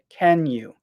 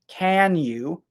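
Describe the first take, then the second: First: The vowel in can is weak and reduced. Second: The vowel in can is a full ah sound. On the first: The speaker calls it right. "we say can you" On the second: The speaker calls it wrong. "We don't say can you"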